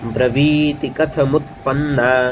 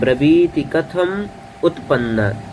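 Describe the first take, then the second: First: The final m runs straight into utpannā. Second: Kathaṃ and utpannā are said as separate words. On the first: This is the text as written, for recitation. "यहाँ पे देखिए कैसे है।" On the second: The words are split by grammar for learners. "तो ये अलग अलग हो जाता है व्याकरण की दृष्टि से।"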